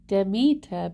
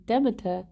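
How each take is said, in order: First: Demeter said dih-MEE-ter, stress on the second syllable; own pronunciation. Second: Demeter said DEM-eh-ter, stress on the first syllable; game's pronunciation. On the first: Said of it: "I always pronounce it". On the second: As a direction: Demeter with a short E up front, DEM-eter. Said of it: "in game they say". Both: Shown as a demonstration.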